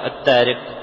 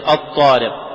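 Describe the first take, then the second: First: The first consonant is light and plain. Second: The first consonant is heavy and emphatic. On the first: Foreign influence has entered the pronunciation. The speaker calls it wrong. "هذا ليس بعربي، هذا دخلته العجمة" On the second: The speaker calls it right. "العربي يقرأه مفخما"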